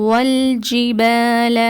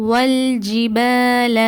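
Both takes have the same delivery.

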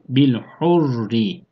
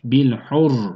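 First: The word continues with a thin, light r. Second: The word stops on a thick, heavy r. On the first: "vasıl halinde ise ince okunur" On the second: "Vakıf halinde e, kalın"

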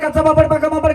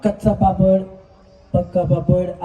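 First: The phrase is said fast without stopping. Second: The phrase is said slowly and softly. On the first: The speaker calls it right. "तुम्हाला स्पीडने बोलायला लागेल. कसं" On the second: The speaker calls it wrong. "हळू आवाजात किंवा कच्चा पापड पक्का पापड असं म्हणला तर कमी वेळा बोलणार"

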